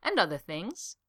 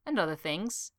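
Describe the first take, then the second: First: Sing-song glee. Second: Said in the usual way. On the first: Acted. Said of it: "sounding almost sing-song with glee". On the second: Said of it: "Pinboard repeated".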